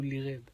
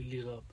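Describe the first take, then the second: First: غاب said as ghēb, long a leaning to e; Lebanese vowel. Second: غاب said as ghāb, open a; plain a vowel. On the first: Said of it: "بلبنان بيقولوا". (غاب تُلفظ غيب بالإمالة اللبنانية) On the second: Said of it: "ما بيقولوا". (غاب تُلفظ بفتحة ممدودة عادية) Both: Shown as a demonstration.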